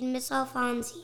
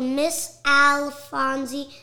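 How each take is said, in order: First: The name is said at normal speed. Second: The name is said slowly and carefully. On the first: "but say it in your normal speed" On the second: "L in the middle"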